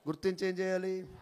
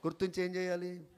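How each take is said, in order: Both takes have the same delivery.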